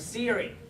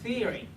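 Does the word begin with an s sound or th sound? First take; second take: s sound; th sound. First: The word begins with an s sound. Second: The word begins with a th sound. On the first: The speaker calls it wrong. "You don't say theory or Siri" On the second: The speaker calls it right. "There's a pressure"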